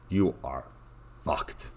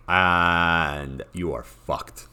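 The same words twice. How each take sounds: First: Dropped to a near-mutter; quiet resigned repeat. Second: Drawn out, each word weighed; slow emphatic doom. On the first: Repeating the verdict to viewers, much softer. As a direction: say it again softly, resigned. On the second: Telling viewers this faction is doomed, slow and heavy. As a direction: let the bad news land slowly. Faction stuck in hopeless position. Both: Acted.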